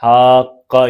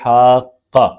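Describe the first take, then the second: Both takes have the same delivery.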